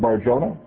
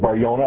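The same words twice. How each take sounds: First: The name is said in an English way. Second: The name is said in a Spanish way.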